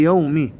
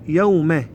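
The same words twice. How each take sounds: First: يومي as "yawmi", ending in "i"; corrected model, يومي with kasra; kasra on mim. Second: يومه as "yawma", ending in "a"; imitating the error, يومه with fatha; mistaken ending. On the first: Shown as a demonstration. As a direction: end يومي on a clear "ee". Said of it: "مكسورة الميم". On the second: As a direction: end يومه on an open vowel. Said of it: "يقرؤون يقولون".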